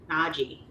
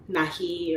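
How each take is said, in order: First: Naji with a soft zh-like j; correct name. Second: Nahi said with an h sound, slowly; wrong name. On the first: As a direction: say Naji as NAH-zhee. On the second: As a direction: say Nahi with a breathy h. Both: Shown as a demonstration. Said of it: "but it's Naji".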